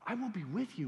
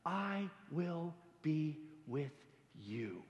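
First: "will" pressed firmly; stress on will. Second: Slow, soft, reassuring promise; tender God voice. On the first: God insisting to Moses, stress on "will". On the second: God promising Moses, soft and slow. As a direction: lean in and promise it gently, slowly. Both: Acted. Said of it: "but God himself saying".

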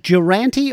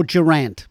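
First: "Durante" said with a final "ee"; name ending in -ee. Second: "Durant" ending on the "t"; name without final vowel. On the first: Host checks singer's surname, "[name]" ending in "ee". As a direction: say "Durante" with the last vowel sounded. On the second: Host checks singer's surname, "[name]" ending on "t". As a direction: say "Durant" with no "ee" after it. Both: Shown as a demonstration. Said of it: "is it [name] or [name]".

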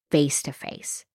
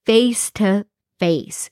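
First: Said in the usual way. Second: "face to face" said very slowly, a little higher; slow, deliberate "face to face" for impact; drawn-out emphasis. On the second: Real, not acted. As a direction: stretch out each word of "face to face". Repeats phrase slowly for emphasis.

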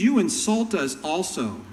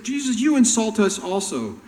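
First: Mildly indignant complaint; a hurt, huffy objection; offended lawyer. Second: Loud, high, indignant outburst; heated quote. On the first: Lawyer complaining to Jesus, mildly indignant. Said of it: "one of the lawyers that was standing by heard this". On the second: Jesus mocking the lawyers' complaint, loud and heated. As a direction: throw their complaint back hard. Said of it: "when they said". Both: Retold or imitated.

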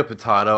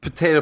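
First: "potato" as puh-TAH-toh; broad-A pronunciation. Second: "Potato" as puh-TAY-toh; long-A pronunciation. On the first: Guest answering the host, "potato" as puh-TAH-toh. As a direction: say "potato" with the vowel of "father". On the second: Guest shrugging off the question, "Potato" as puh-TAY-toh. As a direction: say "Potato" with the vowel of "day". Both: Shown as a demonstration. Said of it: "how are we pronouncing that word?".

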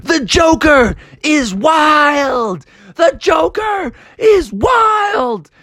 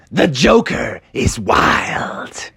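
First: Slow, high, ringing "The Joker is wild!"; victory chant called out slowly; triumphant shout. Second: Slow, hushed whisper of "The Joker is wild"; a whispered "yell" that stays hushed; dramatic whisper. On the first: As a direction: crow it out, drawn out and high. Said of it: "he kept shouting". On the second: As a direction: breathe it out like a secret, slowly. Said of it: "And he yelled out". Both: Acted.

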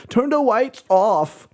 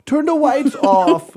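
First: Put-on high, slow insistent kid; lightly voiced demanding boy; child voice demanding. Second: Put-on higher, louder insistent kid; a kid shouting his demand; loud child demand. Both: Son Weston demanding darkness.

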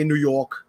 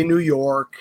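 First: New York said with a thick hometown accent; New York accent, dropped r in York. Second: Said in the usual way. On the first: Shown as a demonstration. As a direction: say New York the local New Yorker way. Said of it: "we have New York accents". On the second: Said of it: "or I can say New York".

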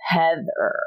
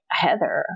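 First: Falling, knowing recognition of the name; loaded recognition. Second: Puzzled, not placing the name at all; blank puzzled question. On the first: Recognizing Heather to her old college friend, knowing fall. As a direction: let the name land as old memories flood back. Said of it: "Why did you say it like that?". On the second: Asking her college friend who Heather is, puzzled. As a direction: ask the name as if it means nothing. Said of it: "And I had no, like, reference". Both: Retold or imitated.

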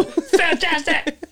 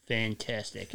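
First: Very high, very slow, stretched out; exaggerated cheer. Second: Grumpy deadpan. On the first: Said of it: "Just like that". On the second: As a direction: say it like you don't care. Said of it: "like that grumpy cat". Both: Shown as a demonstration.

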